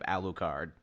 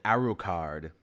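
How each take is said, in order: First: The name is said with an L sound. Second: The name is said with an R sound. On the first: This is the English form of the name. "pronunciation of Alucard" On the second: This is how the Japanese side said the name. "the Japanese don't really have a word for L, so they called it Arucard"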